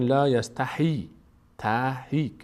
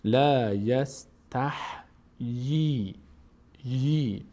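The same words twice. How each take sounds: First: "لا یستحی" said as la yas-ta-hee; wrong kasra on H. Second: "لا یستحیی" slowly as yas-tah, pause, yee; vowelless H. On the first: Retold or imitated. Teacher imitates learners' mistake, h carrying ee. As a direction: run h straight into ee in "تحی". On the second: Shown as a demonstration. Teacher corrects the learners' slip, h and yee separated. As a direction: separate closed h from long "یی".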